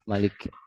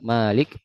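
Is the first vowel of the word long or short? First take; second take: short; long. First: The first vowel is kept short. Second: The first vowel is held long. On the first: "bisa juga dibaca" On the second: "bisa dibaca panjang"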